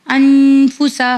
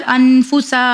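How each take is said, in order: First: "अनफूसा" with a long hummed n, short ending; corrected reading. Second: "अनफूसा" with a short n and dragged final आ; common wrong reading. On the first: Teacher correcting the mistake, "अनफूसा" with drawn-out nasal n. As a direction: hold the न of "अनफूसा", then say फूसा quickly. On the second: Teacher showing the usual mistake, "अनफूसा" without the held n. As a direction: say "अनफूसा" skipping the long hum, stretching the last vowel. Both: Shown as a demonstration. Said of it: "नहीं, अनफूसा।".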